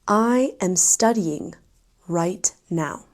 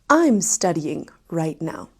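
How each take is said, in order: First: I am is said as two full words. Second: I am is contracted to one syllable.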